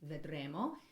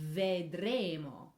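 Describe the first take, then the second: First: The first consonant is short. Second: The first consonant is held longer. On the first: The speaker calls it wrong. "it can't just be vedremo" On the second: The speaker calls it right. "needs to have a little bit more length"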